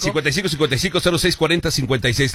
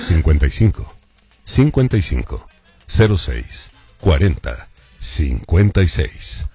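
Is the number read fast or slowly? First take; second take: fast; slowly. First: The number is read at a quicker pace. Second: The number is read at a slower pace.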